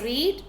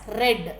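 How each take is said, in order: First: The vowel is long, sounding like 'reed'. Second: The vowel is short, sounding like 'red'. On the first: The speaker calls it wrong. "We should not pronounce it as read" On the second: The speaker calls it right. "You have to pronounce it as read"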